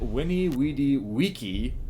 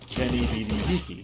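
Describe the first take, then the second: First: Each word begins with a W sound. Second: Each word begins with a V sound. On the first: This is how the ancient speaker would have said it. The speaker calls it right. "would have said Winnie Weedy Wiki" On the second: This is how people today assume it was said. The speaker calls it wrong. "what people think he said"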